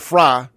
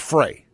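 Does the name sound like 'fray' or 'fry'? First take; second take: fry; fray. First: The name sounds like the word 'fry'. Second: The name sounds like the word 'fray'. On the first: This is how others say the name. "they pronounce it Fry" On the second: This follows the spelling of the name. "I pronounce things the way they spell"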